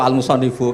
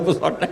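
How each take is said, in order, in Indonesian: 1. Kata itu dibaca dengan vokal di akhir. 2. Kata itu dibaca berakhir dengan konsonan. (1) "Mbah Mun baca" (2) "Berarti kan goblok banget itu"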